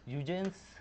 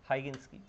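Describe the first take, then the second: First: The name starts with a 'hue' sound. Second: The name starts with a 'high' sound. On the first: "कुछ लोग ह्यूजेंस भी बोल सकते हैं"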